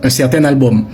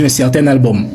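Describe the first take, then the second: No difference in how they are said.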